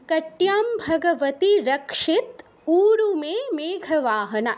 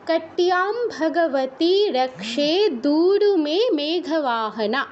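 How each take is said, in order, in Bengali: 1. অষ্টম অক্ষরের পরে থামে, সন্ধিটি ভেঙে দেয়। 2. পুরো লাইনটা একটানা এক নিঃশ্বাসে বলা হয়। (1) "যদি আমরা এখানে থামতে চাই বা সন্ধি বিচ্ছেদ করে বলতে চাই তাহলে আমরা এভাবে বলতে পারি" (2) "এক একশ্বাসেও বলে যেতে পারি"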